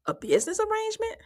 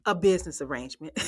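First: High, sarcastic mock question; mocking high-pitched quote; mocking Martell. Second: Said in the usual way. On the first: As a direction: say it like a scoffing imitation. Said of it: "He said".

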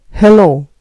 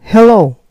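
First: Hello repeated, gently falling; American hello, falling; American English hello. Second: Hello with a bright higher start, falling; hello, heh-LOH falling; American English hello. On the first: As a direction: model hello for the learner. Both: Shown as a demonstration. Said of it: "en inglés".

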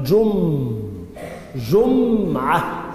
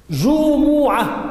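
First: جمعة as jummm-'a, the m held long; sukun on the meem. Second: جمعة as juu-muu-'a, high and slow; damma on the meem. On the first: Teacher showing the weekly sense, جمعة slowly with held silent meem. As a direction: hum on the vowelless m of جمعة, then 'a. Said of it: "بسكون مين؟". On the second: Teacher showing the Friday word, جمعة slowly as ju-mu-'a. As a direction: stretch both u vowels of جمعة, pitched up. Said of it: "بالضم". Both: Shown as a demonstration.

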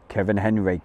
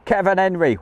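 First: Said in the usual way. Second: High, lively name call; pitched-up cheery roll call; excited shout-out. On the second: Real, not acted. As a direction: greet a viewer with a lift. Greets viewer by name.

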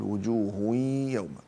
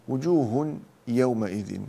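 First: Sung, وجوه يوم with the tanween melted into a long nasal y; sung, merge وجوه into يوم with drawn-out ghunna; merging with nasal hum. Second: Said in the usual way. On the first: Shown as a demonstration. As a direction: slowly hum through the join in وجوه يوم. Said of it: "إدغام بغنة".

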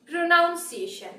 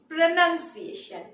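First: "pronunciation" slowly, with "noun" in the middle; incorrect pronunciation. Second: "pronunciation" slowly, with "nun" in the middle; correct pronunciation. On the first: Teacher demonstrating the common error, "pronunciation" with "noun". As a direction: say "pronunciation" wrongly as pro-NOUN-see-AY-shun. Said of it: "That is incorrect". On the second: Teacher giving learners the correct form, "pronunciation" with "nun". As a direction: say "pronunciation" as pro-NUN-see-AY-shun. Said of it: "The correct pronunciation is". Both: Shown as a demonstration.

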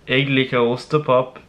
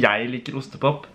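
First: "Jeg liker" said as Nynorsk "eg likar"; "Jeg liker ostepop" turned into Nynorsk; Nynorsk pronunciation. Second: "Jeg liker ostepop" with Bokmål "jæi"; quoting his Bokmål wording. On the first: Shown as a demonstration. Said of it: "på nynorsk". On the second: Retold or imitated. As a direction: say "Jeg" as "jæi", not Nynorsk "eg". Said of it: "underholdningsshow for dere på nynorsk".

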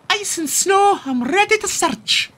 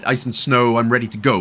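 First: Very high Scottish pup catchphrase. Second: Said in the usual way. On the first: Pretend. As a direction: chirp it like a Scottish cartoon pup. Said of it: "it's just the voice". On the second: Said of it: "she could have said".

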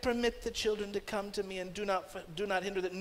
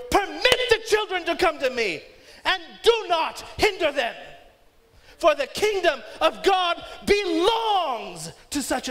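First: Put-on soft and gentle Permit the children, calm and mild; simple quiet. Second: Put-on higher, louder, furious Permit the children; indignant. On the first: Jesus gently speaking to disciples, quiet and mild. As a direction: say it like a kind reminder. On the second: Jesus indignant at his disciples, loud furious rebuke. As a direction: rebuke them with fury. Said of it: "These words were not a simple, quiet". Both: Shown as a demonstration.

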